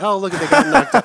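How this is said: It sounds happy and delighted.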